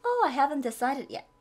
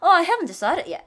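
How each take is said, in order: First: Tone it down; milder regret. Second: Much higher, louder, overdone "Oh"; exaggerated regret. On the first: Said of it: "이렇게 표현하시면". (차분하게 아쉬움) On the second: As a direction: overplay disappointment. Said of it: "이것보다". (과장해서 아쉬워하며) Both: Shown as a demonstration.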